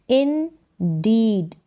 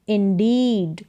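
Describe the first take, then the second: First: "Indeed" stretched slowly in two separate parts; syllable by syllable. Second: Said in the usual way. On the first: Shown as a demonstration. Teacher sounding out a word for beginners, syllable by syllable. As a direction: sound out "Indeed" as in-deed, drawn out.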